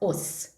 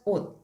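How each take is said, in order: First: The word ends with an s sound. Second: The word ends with a t sound. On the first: The speaker calls it wrong. "not os" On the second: The speaker calls it right. "It sounds as 옷"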